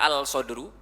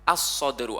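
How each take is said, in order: First: The article keeps a clear l sound. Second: The article blends into an s sound. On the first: The speaker calls it wrong. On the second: The speaker calls it right.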